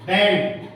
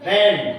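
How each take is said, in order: First: Said in the usual way. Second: band said louder, punched with a fall; teacher landing the joke on band for the class, punched; punched word. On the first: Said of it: "teacher builds up to the joke". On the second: Shown as a demonstration. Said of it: "teacher punches the joke word".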